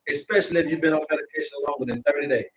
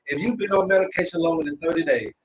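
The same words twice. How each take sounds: First: Fast, run-together first pass; rushed. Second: Said in the usual way. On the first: Real, not acted. Host warning viewers about medication, rushing it the first time. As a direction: hurry through it. Repeats the medication line twice.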